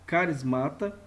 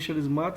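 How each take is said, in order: First: The word begins with a k sound. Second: The word begins with an sh sound. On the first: The speaker calls it right. "o correto é você ler carismata" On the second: The speaker calls it wrong. "Você pode ler charismata"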